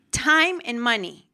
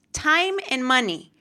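First: Time and money said slower and weighted, hitting "Time"; slow, emphatic restatement of Time and money; emphatic repeat. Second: Said in the usual way. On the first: Shown as a demonstration. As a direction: lean hard on "Time" and "money" the second time.

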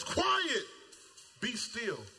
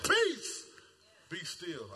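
First: Said in the usual way. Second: Jesus commanding the storm with "Peace". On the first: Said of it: "The translation that I grew up on said". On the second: Shown as a demonstration. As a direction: proclaim "Peace" then settle into "be still". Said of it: "I like that, peace".

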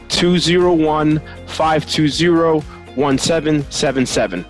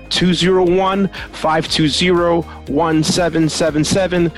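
No difference in how they are said.

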